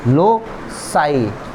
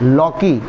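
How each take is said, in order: First: The second consonant is an S sound. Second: The second consonant is a K sound. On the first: The speaker calls it right. "इसको बोलते हैं लोसाई" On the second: The speaker calls it wrong. "Not लॉकी"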